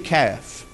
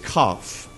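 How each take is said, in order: First: The vowel sounds like the one in cat. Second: The vowel sounds like the one in caught. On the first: "I pronounced it, being from East Tennessee" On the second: "a Hebrew scholar told me it's cough"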